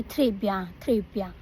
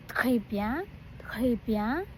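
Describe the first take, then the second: First: "Très bien" with an English-accented R. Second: "Très bien" with a throaty French R. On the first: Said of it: "I used to say". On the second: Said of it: "you can say". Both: Shown as a demonstration.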